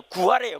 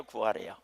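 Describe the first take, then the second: First: Louder, higher declaration; emphatic. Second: Much lower, hushed repeat; soft echo. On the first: Preacher answering what God asks, emphatic. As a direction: proclaim it to the congregation. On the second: Preacher echoing his own answer, hushed. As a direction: let it fall to a murmur. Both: Acted.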